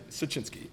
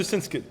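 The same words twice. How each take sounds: First: "Siecienski" said as seh-CHIN-skee, three syllables; "Siecienski", fixing the name carefully; "Siecienski" pronounced in full with the ch sound; corrected name. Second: "Sinsky" said short, as two syllables; "Sinsky", the clipped wrong version of the name; "Sinsky" garbled before the correction; slip on name. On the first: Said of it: "Ed Siecienski". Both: Real, not acted.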